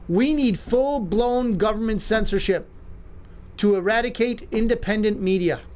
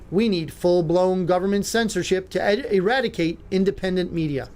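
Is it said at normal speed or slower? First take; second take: slower; normal. First: It is said more slowly. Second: It is said at normal speed.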